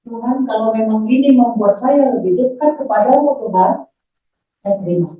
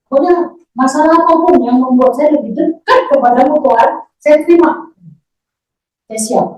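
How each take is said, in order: First: Measured, earnest plea to God; retold prayer of acceptance. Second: Louder, higher, resolute retold prayer; re-enacted vow, driven hard; emphatic prayer vow. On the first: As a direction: re-enact a sincere, restrained surrender in prayer. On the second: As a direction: declare full surrender to God with rising force. Same prayer, now said forcefully.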